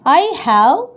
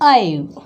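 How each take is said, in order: First: Both words are said in full. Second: The words are contracted into one syllable. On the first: "the sentence is I have" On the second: "The have changes into I've"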